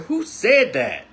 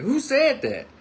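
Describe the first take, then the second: First: Slow, raised and firm; stern demand. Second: Much higher, insistent repeat; now really mean it, push harder; angrier demand. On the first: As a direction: stop and turn on him, demanding. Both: Retold or imitated. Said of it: "And I meant it".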